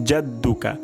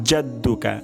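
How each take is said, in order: The two takes are said the same way.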